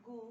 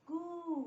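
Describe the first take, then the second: First: गू with a brief oo; short u vowel. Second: गू higher, with a long held oo; long u vowel. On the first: Teacher drilling the g series, short vowel in गू. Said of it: "छोटी ऊ की". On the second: Teacher drilling the g series, long vowel in गू. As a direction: stretch the oo in गू. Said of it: "बड़ी ऊ की मात्रा". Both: Shown as a demonstration.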